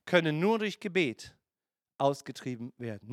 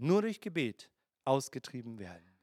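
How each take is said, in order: First: Said in the usual way. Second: Softer and lower, weighing "Nur durch Gebet"; quiet emphatic repeat. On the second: Shown as a demonstration. Preacher repeating the verse to the congregation, low and quiet.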